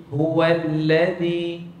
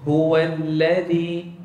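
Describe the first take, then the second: Both takes have the same delivery.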